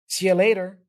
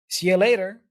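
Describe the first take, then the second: Both takes have the same delivery.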